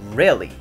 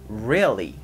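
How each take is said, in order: First: The word is said at a faster speed. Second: The word is said slowly and carefully. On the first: "ちょっと早めのスピードになりますが" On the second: "正しい発音を僕ゆっくりやるので"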